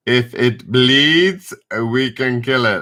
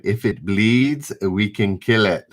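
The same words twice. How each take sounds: First: Put-on horrible Arnie accent. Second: Said in the usual way. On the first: Quizmaster doing the Predator quote for chat in a bad Austrian Arnie accent. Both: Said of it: "that's a horrible Arnie accent".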